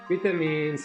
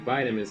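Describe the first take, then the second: First: It is said with a British pronunciation. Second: It is said with an American pronunciation. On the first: "in the U K" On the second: "in the U S"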